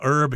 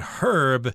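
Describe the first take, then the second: First: The word is said in an American accent. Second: The word is said in a British accent. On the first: "herb here is the American pronunciation" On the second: "If you go to England, they're going to say herb"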